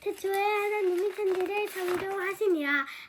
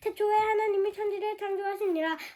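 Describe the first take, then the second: First: It is said at a normal pace. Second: It is said noticeably faster.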